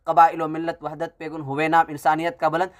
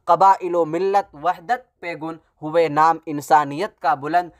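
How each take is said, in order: First: It is read in a flat, prose-like cadence. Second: It is recited with the rhythmic cadence of verse. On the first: It sounds like a story rather than a poem. "ये नसर के अंदाज में हो गया" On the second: It sounds like a poem. "ये एक शेर है"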